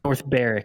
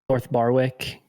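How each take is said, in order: First: The W in the second word is silent. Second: The W in the second word is pronounced. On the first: The speaker calls it right. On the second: The speaker calls it wrong.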